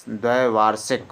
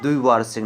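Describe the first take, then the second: First: "द्वैवार्षिक" with ai in the first syllable; correct form demonstrated. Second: "द्विवार्षिक" with i in the first syllable; wrong form demonstrated. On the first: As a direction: open "द्वैवार्षिक" as dvai. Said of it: "द्वैवार्षिक होता है". ("द्वैवार्षिक" में ऐ की मात्रा) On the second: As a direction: open "द्विवार्षिक" as dvi. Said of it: "द्विवार्षिक नहीं होता". ("द्विवार्षिक" में इ की मात्रा) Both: Shown as a demonstration.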